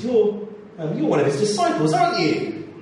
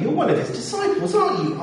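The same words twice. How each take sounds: First: Higher, pointed questioning voice; a servant pressing Peter with a suspicion; accusing bystander. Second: Much higher, sharp accusing question; shrill accuser. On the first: Bystander accusing Peter by the fire, higher questioning. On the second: Second accuser confronting Peter, much higher and insistent. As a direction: press harder, sure of the answer now. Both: Acted.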